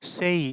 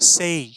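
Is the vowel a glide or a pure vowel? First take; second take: glide; glide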